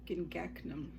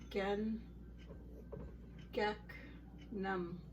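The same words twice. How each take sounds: First: It is said quickly as one word. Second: It is said slowly, syllable by syllable. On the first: "Then you would speed it up" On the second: "to break this up"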